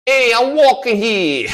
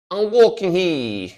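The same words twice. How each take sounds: First: Put-on loud, slow New York accent, stretching "walking"; New Yorker accent. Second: Put-on New York accent, slow and higher, broken by laughter; laughing New Yorker accent. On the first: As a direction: bark it like an annoyed New Yorker on the street. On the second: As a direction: crack up while doing the New Yorker line. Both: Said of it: "Like New, New Yorker".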